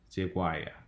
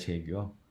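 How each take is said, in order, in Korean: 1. 미국식 미끄러지는 모음으로 말하고 있어요. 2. 한국어 소리로 그냥 말하고 있어요.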